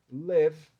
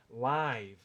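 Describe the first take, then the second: First: "live" as loud "lev", short E; E sound. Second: "live" with a long AI vowel, like "laiv"; "live" as ao vivo. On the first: Teacher recaps the verb morar, "live" as "lev". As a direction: say "live" with E and silent final letter. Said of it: "Então isso aqui é". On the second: Teacher shows ao vivo, "live" said slowly as "laiv". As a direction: draw out "live" to rhyme with five. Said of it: "se eu quisesse dizer ao vivo". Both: Shown as a demonstration.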